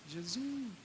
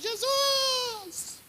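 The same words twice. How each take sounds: First: It is said softly. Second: It is shouted loudly.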